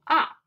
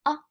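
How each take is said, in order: First: "ah" loud, short and falling; fourth tone. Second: "ah" very short and light; zero tone. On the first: Demonstrating the fourth tone for students, a sharp falling "ah". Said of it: "Fourth tone". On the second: Showing students the zero tone, a brief light "ah". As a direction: let "ah" out as a quick, unstressed syllable. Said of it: "Zero tone is". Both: Shown as a demonstration.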